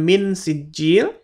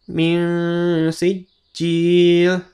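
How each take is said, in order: First: The n is pronounced clearly. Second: The n is blurred into an ng sound. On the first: The speaker calls it wrong. "itu tidak dibaca jelas" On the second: The speaker calls it right. "seperti min sijil"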